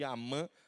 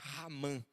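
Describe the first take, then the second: First: The name starts directly with a vowel. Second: The name starts with a breathy h sound. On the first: "alguns chamam de Amã" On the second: "não pronunciamos com som de H mudo, mas um H aspirado, igual hot dog"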